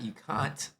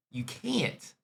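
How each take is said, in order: First: Can't with a long ah, kɑ̃nt; broad can't. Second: Can't with a flat a, as in ant. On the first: Host showing the version he hears, cahnt. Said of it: "Not you can't". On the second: Host explaining the word to South Africans, can't like ant. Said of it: "which is ant". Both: Shown as a demonstration.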